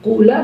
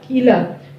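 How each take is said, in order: First: The first vowel is a plain u. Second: The first vowel is a plain i. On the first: "boleh juga bagi kamu untuk membaca dhamma fa fi'ilnya" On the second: "boleh untuk mengkasrohkan fa fi'ilnya dibaca kila"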